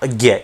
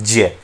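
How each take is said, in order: First: The syllable does not begin with a j sound. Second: The syllable begins with a j sound. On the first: This is how it is commonly said today. The speaker calls it wrong. "इस तरह से हम इसका उच्चारण करते हैं, लेकिन भाषा विज्ञान की दृष्टि में इस उच्चारण को गलत मानते हैं" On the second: This is the form linguistics treats as correct. The speaker calls it right. "भाषा विज्ञान के अनुसार इसका जो उच्चारण होता है वो तो वो होता है ज्य"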